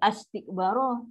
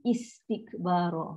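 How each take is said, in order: First: The word starts with an 'a' vowel. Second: The word starts with an 'i' vowel. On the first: The speaker calls it wrong. "Kita tak boleh tentang astikbara" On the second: The speaker calls it right. "Dia mesti istikbara"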